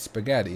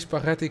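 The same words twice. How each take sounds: First: It is pronounced with an English accent. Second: It is pronounced with a Dutch accent. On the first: The speaker calls it right. "It's spaghetti, not spaghetti in English" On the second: The speaker calls it wrong. "Which I totally said the Dutch way"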